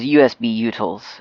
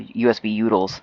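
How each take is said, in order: First: Utils is pronounced in the careful standard way. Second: Utils is pronounced in a relaxed, reduced way. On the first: "the package name actually is" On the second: "as a guy at my old job used to say"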